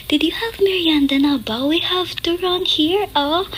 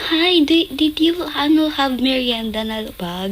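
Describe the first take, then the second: First: High airy konyo rich-mom Taglish. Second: Lightly voiced konyo rich-mom Taglish, higher; a hint of a sweet rich mom offering snacks. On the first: Retold or imitated. Neighbor's rich mom chirping about merienda in konyo Taglish. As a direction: put on a breathy posh-tita konyo voice. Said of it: "Konyo, konyo yung mom niya". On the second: Rich mom of the neighbor kid offering merienda, mild konyo lilt. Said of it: "Ganun magsalita. Konyo".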